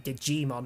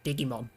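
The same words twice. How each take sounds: First: It has the usual English pronunciation. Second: It has a Finnish-style pronunciation. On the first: The product name is kept as it is. The speaker calls it right. "surely it should still be Digimon" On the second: The name is changed to suit another language. The speaker calls it wrong. "not Digimon"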